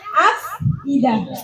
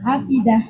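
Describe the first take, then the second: First: A glottal stop separates the two middle syllables. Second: The syllables run together without any glottal stop. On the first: "Yang asalnya" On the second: "menjadilah afidah"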